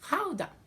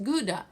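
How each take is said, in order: First: It is said the local Dutch way. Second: It is said the familiar international way. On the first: The speaker calls it right. "it's pronounced Gouda" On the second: The speaker calls it wrong. "it's not pronounced Gouda"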